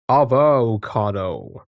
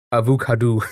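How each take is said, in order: First: Avocado drawn out slowly, ah-voh-KAH-doh; slow trial pronunciation. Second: Avocado said uh-voo-KAH-doo with oo vowels; odd pronunciation. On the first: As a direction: try Avocado slowly, each syllable stretched. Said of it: "That doesn't sound right to me". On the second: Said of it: "I like that one". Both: Shown as a demonstration.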